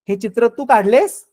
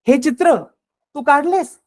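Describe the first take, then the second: First: It is said as a question. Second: It is said in a doubting, disbelieving tone. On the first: It asks whether you drew this picture. "प्रश्नार्थक" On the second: It implies you could not have done such work. "म्हणजे तुला हे शक्य नाही, तुला असं काम जमणार नाही"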